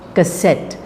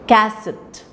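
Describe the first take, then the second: First: The stress is on the second syllable. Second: The stress is on the first syllable. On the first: The speaker calls it right. "the k part of it is a said weakly. The set part of it is stronger" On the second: The speaker calls it wrong. "we don't say cassette. That's wrong, wrong pronunciation"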